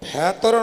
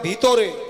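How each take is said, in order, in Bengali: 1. প্রথম স্বরধ্বনিটি 'e'-এর মতো শোনায়। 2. প্রথম স্বরধ্বনিটি 'i'-এর মতো শোনায়। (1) "ভেতরে নয়"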